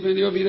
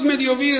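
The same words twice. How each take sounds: First: It is said flatly, as if it were nothing. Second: It is said with strong, amazed emotion. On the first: Receiving life seems unimportant. The speaker calls it wrong. "Como que nada" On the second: Receiving life is overwhelming and wonderful. The speaker calls it right. "es para decir, wow, es increíble"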